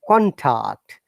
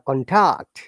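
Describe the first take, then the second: First: The stress is on the first syllable. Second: The stress is on the second syllable. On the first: It is used as a noun. "For the noun, we have to stress on the first part" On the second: It is used as a verb. "when it becomes verb, it becomes the other way around"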